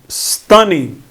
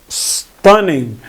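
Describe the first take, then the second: The two takes are said the same way.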